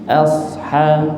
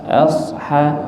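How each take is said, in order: No difference in how they are said.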